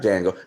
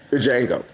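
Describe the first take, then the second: First: The opening D is clearly sounded. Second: The opening D is not sounded. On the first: The speaker calls it wrong. "Not Django" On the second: The speaker calls it right. "It's pronounced Django. The D is silent"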